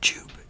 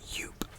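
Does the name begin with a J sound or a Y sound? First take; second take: J sound; Y sound. First: The name begins with a J sound. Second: The name begins with a Y sound. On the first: The speaker calls it wrong. "a lot of people pronounce this as Joop, but it's not Joop" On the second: The speaker calls it right. "it's Yoop"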